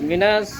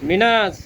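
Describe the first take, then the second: The two takes are said the same way.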